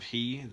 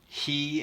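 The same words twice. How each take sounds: First: The word is said plainly without extra emphasis. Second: The word is said with strong, enunciated emphasis. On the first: It is an ordinary pronoun. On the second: It refers to the divine figure.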